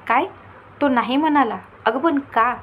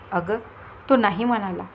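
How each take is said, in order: First: She can't believe he said no; shocked disbelief. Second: Said in the usual way. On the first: Acted. Daughter shocked by the refusal. (धक्का बसलेल्या, अविश्वासाच्या आवाजात)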